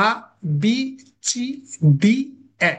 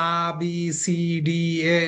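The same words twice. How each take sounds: First: "আ, বি, সি, ডি, এ" each short with a pause after; crisp separate letters, no stretching; short, straight letters. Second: Stretched letter names as the wrong way to read; drawn-out letters. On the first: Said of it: "না, হবে না". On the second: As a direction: drag "আ, বি, সি, ডি, এ" into one slow, falling run. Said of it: "আপনি যদি এভাবে পড়েন". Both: Shown as a demonstration.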